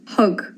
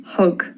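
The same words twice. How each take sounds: The two takes are said the same way.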